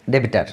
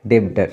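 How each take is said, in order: First: ডেবিটার said as de-bi-tar, three syllables; say debitor. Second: ডেবটার said as two syllables, deb-tar; say debtor. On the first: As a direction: say ডেবিটার with an i sound added after the b. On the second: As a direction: say ডেবটার clipped, with no vowel between b and t. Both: Shown as a demonstration. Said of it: "মানে উচ্চারণটা এরকমই হবে".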